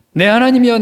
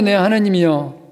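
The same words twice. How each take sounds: First: Higher, louder anguished call; mock cry to God. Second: Said in the usual way. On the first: Pastor opening Psalm 22 for the congregation, crying out.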